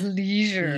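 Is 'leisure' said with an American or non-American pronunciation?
American. Leisure is said with an American pronunciation. "Americans pronounced"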